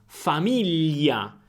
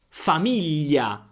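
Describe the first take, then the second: The two takes are said the same way.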